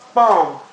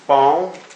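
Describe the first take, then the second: First: The pitch drops sharply from high to low. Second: The pitch rises from middle to high. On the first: "the falling tone" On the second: "the rising tone"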